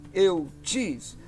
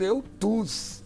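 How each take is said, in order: First: The second vowel is a rounded front 'ü' sound. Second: The second vowel is a plain back 'oo' sound. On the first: "Eu prefiro esta pronúncia do, mais uma vez, do Y sozinho, com som de U tremado" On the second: "você pode encontrar algum professor falando eutus aí"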